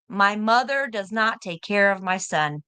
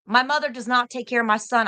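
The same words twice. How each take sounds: First: Each word spelled out slowly and firmly; slow down and stress "not". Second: Said in the usual way. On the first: Real, not acted. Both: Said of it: "I'm gonna tell you again".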